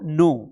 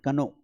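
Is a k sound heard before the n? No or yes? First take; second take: no; yes. First: The k is silent and it starts with n. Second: A k sound is pronounced before the n. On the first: The speaker calls it right. "उसका उच्चारण ही नहीं करना है, तो नो" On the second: The speaker calls it wrong. "कई लोग इसके कनो पढ़ते हैं"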